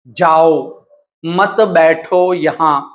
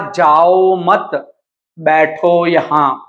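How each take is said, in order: First: The pause comes after जाओ. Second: The pause comes after मत.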